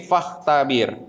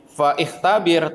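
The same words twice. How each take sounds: First: "fahtabir" joined up, with no "i" after "fa"; hamzah dropped. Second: "fa ikhtabir" with the "i" sounded after "fa"; hamzah pronounced. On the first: Teacher showing students the correct joined reading, hamzah dropped. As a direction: run "fa" straight into the "h" of "fahtabir". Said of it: "Bacanya jangan fa ikhtabir, tapi". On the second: Teacher showing students the reading to avoid, hamzah pronounced. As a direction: say "fa ikhtabir" as two parts, fa then ikh-tabir. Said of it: "Bacanya jangan". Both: Shown as a demonstration.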